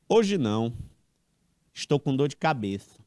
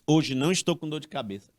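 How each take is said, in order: First: There is a pause after 'não'. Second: There is no pause after 'não'. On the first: Not today, because the speaker has a headache. "com vírgula" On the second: Today the speaker has no headache. "sem vírgula"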